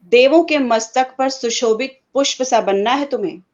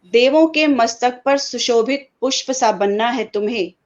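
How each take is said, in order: The two takes are said the same way.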